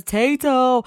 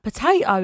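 First: Put-on high little-boy Potato., said firmly; toddler insisting. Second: Potato? asked with a rising, baffled tone; puzzled question. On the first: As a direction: insist on it like a small child. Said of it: "He goes". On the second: Retold or imitated. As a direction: question the word like a confused mum. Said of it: "And I went".

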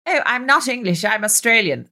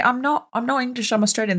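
First: Mock-whiny echo, pitched up; mocking imitation. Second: Said in the usual way. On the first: Kids teasing her for her accent, mocking imitation. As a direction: mimic them to make fun of the accent. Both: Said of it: "They would mock me for my accent".

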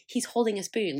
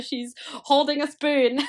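First: Flat, scornful He's holding a spoon, nothing stressed; deadpan mockery of a proud parent; unimpressed scorn. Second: High, slow She's holding a spoon with holding drawn out; gushing mock awe. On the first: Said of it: "And I'm like". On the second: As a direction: swoon over the spoon like a miracle.

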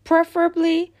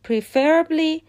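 First: PREFerably, opening syllable punched; correct first-syllable stress. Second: PreFERably, second syllable punched and stretched; wrong second-syllable stress. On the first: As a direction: put the weight on PREF in "preferably". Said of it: "روی سیلاب اوله". (استرس preferably روی سیلاب اول) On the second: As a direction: put the weight on FER in "preferably". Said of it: "استرس روی سیلاب دومه". (استرس preferably روی سیلاب دوم) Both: Shown as a demonstration.

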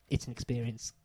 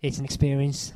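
First: Said in the usual way. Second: Bright, emphatic quote; quoted girl. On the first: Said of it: "She said it with a little bit more emotion than you did". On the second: Retold or imitated. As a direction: say it with feeling. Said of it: "the girl says".

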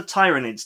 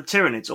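First: Tyranids with a long i, as in tyrant; first vowel of Tyranids long, TIE-ruh-nids; long-i pronunciation. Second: Tyranids with a short i, as in tyranny; first vowel of Tyranids short, TIRR-uh-nids; short-i pronunciation. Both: Shown as a demonstration. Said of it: "depending on how you wanna pronounce it".

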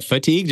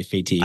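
First: Said in the usual way. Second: "fatigued" said as fay-TEEGD; unusual pronunciation. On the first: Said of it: "I think you meant fatigued". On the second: Retold or imitated. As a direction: open "fatigued" with "fay" instead of "fuh". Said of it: "or do you always say".

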